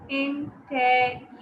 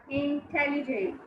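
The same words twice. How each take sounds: First: "Intelligent" slowly broken into IN-TEL-LI-GENT; counting syllables. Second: Said in the usual way. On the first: Shown as a demonstration. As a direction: sound out each syllable of "Intelligent" separately. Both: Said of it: "How many?".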